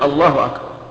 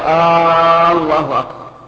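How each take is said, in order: First: No vowel is drawn out beyond normal. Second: The opening vowel of Allah is lengthened. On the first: It declares that God is the greatest. The speaker calls it right. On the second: It turns the phrase into a question. The speaker calls it wrong.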